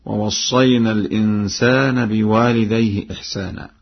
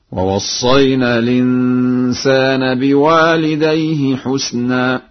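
First: Said in the usual way. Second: Slow higher chant, "حسنا" as husna without hamza; sung, recite melodically, "حسنا" with u after h and unvowelled s; sung, Warsh recitation, husna. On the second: Shown as a demonstration. Teacher demonstrates Warsh's reading, slow chant with "حسنا" as husna. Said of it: "وضم الحاء وإسكان السين هكذا".

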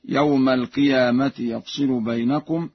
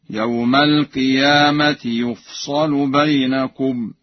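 First: Said in the usual way. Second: "يفصل" as yuf-sa-lu, in slow chant; Warsh reading. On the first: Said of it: "قرأ ورش بضم الياء". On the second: Shown as a demonstration. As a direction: chant slowly, u on the ya and a on the sad in "يفصل". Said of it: "بضم الياء وإسكان الفاء وفتح الصاد". (تلاوة "يفصل" بضم الياء وفتح الصاد مخففة)

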